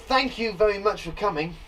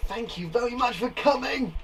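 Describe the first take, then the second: First: Said in the usual way. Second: Higher-pitched exclamation; exclaiming. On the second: Shown as a demonstration. Teacher showing the exclaimed version, higher and emphatic. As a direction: give the thanks more importance. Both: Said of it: "it's saying it's more important".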